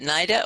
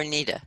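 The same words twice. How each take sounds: First: "Nida" with a long eye vowel, NY-da. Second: "Nida" with a long ee, NEE-da. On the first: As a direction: say "Nida" to rhyme with Ida. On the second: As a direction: say "Nida" with first syllable like knee. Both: Shown as a demonstration. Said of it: "is it Nida or Nida?".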